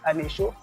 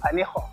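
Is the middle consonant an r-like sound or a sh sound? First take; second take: sh; r-like. First: The middle consonant is a sh sound. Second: The middle consonant is an r-like sound. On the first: This form means nothing at all. The speaker calls it wrong. "si on lit à la française" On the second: This is the town's real name. The speaker calls it right. "pour prononcer cela à l'allemand, ça revient à Anécho"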